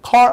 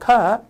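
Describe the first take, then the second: First: The final r sound is pronounced. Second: The final r sound is dropped. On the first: "a good car 아니라" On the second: "car 이렇게 발음이 돼버려요"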